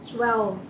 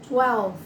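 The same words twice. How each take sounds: No difference in how they are said.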